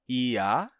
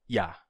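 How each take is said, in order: First: Two separate vowels form two syllables. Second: A gliding consonant and vowel form one syllable. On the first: "Quando você diz ia, você tem vogal, vogal" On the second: "consoantes aproximantes"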